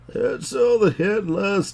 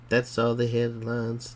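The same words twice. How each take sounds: First: It is said in an old person's voice. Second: It is said in a normal voice.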